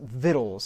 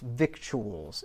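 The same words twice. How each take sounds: First: The word is shortened, unlike its letters. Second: Every letter of the word is sounded out. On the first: The speaker calls it right. "It is pronounced victuals" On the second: The speaker calls it wrong. "it's not pronounced victuals"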